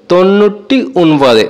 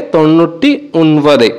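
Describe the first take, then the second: First: "তন্নুরটি উনবাদে" said slowly, syllable by syllable; careful pronunciation. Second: Said in the usual way. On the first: Shown as a demonstration. Teacher showing students how to say ninety-nine, slow and careful. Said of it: "নিরানব্বই উচ্চারণটা হবে". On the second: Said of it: "নিরানব্বই মালায়ালাম হবে".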